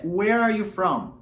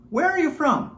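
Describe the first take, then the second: First: "Where are you from?" said slowly, each word clear; slow model question. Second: "Where are you from?" up high, stress on "Where"; higher natural question. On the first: (pergunta modelo dita devagar) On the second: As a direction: ask it again, higher and quicker. (pergunta mais aguda, ênfase em "Where") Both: Shown as a demonstration. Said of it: "A pergunta que nós fazemos".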